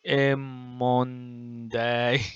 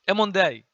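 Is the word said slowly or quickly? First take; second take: slowly; quickly. First: The word is said slowly, syllable by syllable. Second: The word is said quickly and smoothly. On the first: The speaker calls it wrong. "you will not say Emonday" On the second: The speaker calls it right. "you will say it faster like that"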